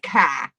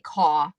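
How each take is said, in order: First: It is said in a Boston accent. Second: It is said in the speaker's own accent. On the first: "He says it like" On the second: "like I say"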